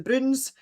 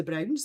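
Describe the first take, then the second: First: "Bruins" as one syllable with oo, like broons; broad Scots pronunciation. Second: Said in the usual way. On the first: Shown as a demonstration. Explaining the comic's name, "Bruins" in broad Scots. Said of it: "they are written in broad Scots". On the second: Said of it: "And that is the Browns".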